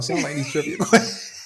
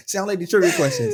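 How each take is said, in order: First: Laughing. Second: Said in the usual way. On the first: Real, not acted. Teasing co-host about trivia nerves.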